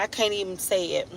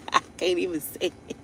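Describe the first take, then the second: First: Said in the usual way. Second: Laughing quietly. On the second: Real, not acted. Laughing it off the second time.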